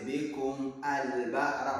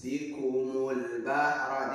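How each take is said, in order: First: The alif is sounded as a separate syllable 'al'. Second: The alif is silent and the words run together. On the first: The speaker calls it wrong. "Don't say bikum al bahra" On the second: The speaker calls it right. "it's bikumul bahra"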